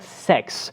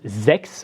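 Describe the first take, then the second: First: The word begins with a hissing S sound. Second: The word begins with a buzzing Z sound. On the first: The speaker calls it wrong. "not sex with an S sound" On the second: The speaker calls it right. "with a Z sound"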